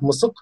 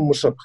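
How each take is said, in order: First: It is said with an s sound. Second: It is said with an sh sound.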